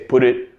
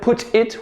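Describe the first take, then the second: First: The T is a soft D-like sound. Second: The T is a clear, separate T sound. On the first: "We have that T reducing to almost that D sound" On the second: "Instead of put it"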